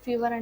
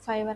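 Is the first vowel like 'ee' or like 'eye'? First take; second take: ee; eye. First: The first vowel sounds like 'ee'. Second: The first vowel sounds like 'eye'. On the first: "కొంతమంది ఫీవర్ అంటారు" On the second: "ఫైవర్ అంటారు"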